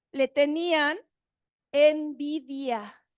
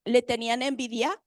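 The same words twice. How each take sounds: First: ENVIDIA drawn out very slowly, falling at the end; pause, then stretch envidia right out; emphatic reading. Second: Plain pace, rising sharply on envidia; questioning repeat. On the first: Reads key word out for emphasis. («envidia» muy lenta y alargada, con énfasis) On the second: (repetición en tono de pregunta, «envidia» sube) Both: Real, not acted.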